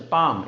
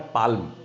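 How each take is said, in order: First: Palm with no L sound; silent L. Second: Palm with the L sounded before M; wrong pronunciation. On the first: Teacher showing learners the rule, palm with silent L. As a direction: say palm straight from vowel to M. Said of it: "L is a silent word". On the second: Teacher showing learners the error, palm with L sounded. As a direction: say palm with an audible L. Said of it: "It's not a palm". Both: Shown as a demonstration.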